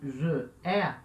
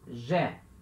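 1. Duas sílabas separadas, com as duas vogais mantidas. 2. Uma sílaba só, com a primeira vogal apagada. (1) "essa forma e je é, tá errado" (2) "fala como se fosse uma palavra só"

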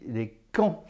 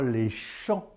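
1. Le mot commence par un son k dur. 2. Le mot commence par un son sh doux. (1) "On dit les camps. On l'a gardé, ça" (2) "On ne dit pas les champs"

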